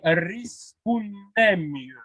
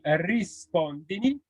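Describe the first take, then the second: First: The vowel after 'rispond' is an 'e'. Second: The vowel after 'rispond' is an 'i'. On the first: This is the Neapolitan form. "en napolitain, on dit" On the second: This is the standard Italian form. "en italien, on dit"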